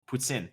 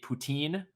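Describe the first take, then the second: First: It is said with a French pronunciation. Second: It is said with an anglicized English pronunciation. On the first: "So that is the proper pronunciation for it" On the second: "if you want to like anglicize it, it would be poutine"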